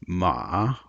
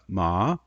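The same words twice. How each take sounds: First: The pitch dips down and comes back up. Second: The pitch starts low and rises higher. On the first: The word means horse. "what we can call a dipping tone" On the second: The word means to be numb. "we'll call that a rising tone"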